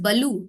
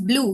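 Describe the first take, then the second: First: A vowel splits b and l into two syllables. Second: The b and l blend into one syllable. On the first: The speaker calls it wrong. "We do not call it as baloo" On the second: The speaker calls it right. "we call it as blue"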